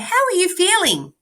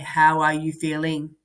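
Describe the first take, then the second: First: It is said expressively with a changing tone. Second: It is said flat and monotone, like a robot. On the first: The speaker calls it right. "I would say, ... We change the way we say it" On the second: The speaker calls it wrong. "I wouldn't say, ... That's like a robot"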